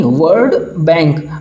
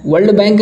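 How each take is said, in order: First: "वर्ड बैंक" drawn out, without the L; corrected word. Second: "वर्ल्ड बैंक" with an L sound before the D; wrong word shown. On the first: ("वर्ड बैंक", बिना ल के धीरे सही उच्चारण) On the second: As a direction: say "वर्ल्ड बैंक" as the slip to reject. ("वर्ल्ड बैंक", ल की आवाज़ के साथ गलत उच्चारण) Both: Shown as a demonstration. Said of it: "वर्ल्ड बैंक नहीं".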